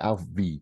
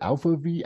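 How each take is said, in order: First: The first part is said as one syllable. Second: The first part is said as two syllables. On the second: "is it Alpha V?"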